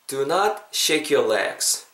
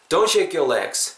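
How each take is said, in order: First: The sentence is said slowly and carefully. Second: The sentence is said at natural conversational speed. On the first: "다 천천히 했으니까" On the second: "자연스럽게 해보겠습니다"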